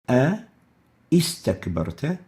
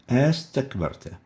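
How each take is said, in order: First: Two separate vowel onsets are pronounced before the verb. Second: Only one vowel onset is pronounced before the verb.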